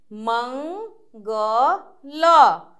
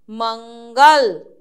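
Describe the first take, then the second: First: मंगल stretched very slow, nasal ं held; drawn-out teaching read. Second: Said in the usual way. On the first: Shown as a demonstration. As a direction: draw out मंगल like for a child. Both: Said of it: "ऊंचे स्वर में पढ़िए".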